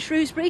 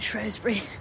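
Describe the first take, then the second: First: The first syllable sounds like 'shrew'. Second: The first syllable sounds like 'straw'. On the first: The speaker is from the less posh side of the river. "because you're a bit common" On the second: The speaker is from the posher side of the river. "Like strawberry and Bath"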